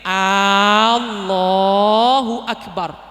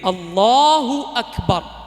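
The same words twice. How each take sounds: First: The first vowel is drawn out long. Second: The first vowel is kept short. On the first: It turns into a question of whether God is great. The speaker calls it wrong. "A-nya yang pertama nggak boleh panjang. Jadi nggak boleh begini" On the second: It states that God is great. The speaker calls it right. "Jadi begitu"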